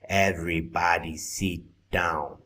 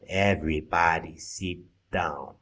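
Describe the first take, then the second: First: The vowel in 'sit' sounds like 'seat'. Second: The vowel in 'sit' sounds like 'seat'.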